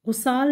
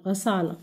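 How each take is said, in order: First: गुसाल with u first; wrong pronunciation. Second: गसाल with a first; correct pronunciation. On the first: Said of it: "सही नहीं है". (गलत उच्चारण गुसाल) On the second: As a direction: teach गसाल, gha-sāl. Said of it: "असल लफ्ज़ है गसाल". (सही उच्चारण गसाल) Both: Shown as a demonstration.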